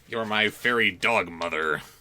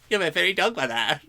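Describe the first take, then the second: First: It is read in a plain, normal voice. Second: It is read in a put-on character voice.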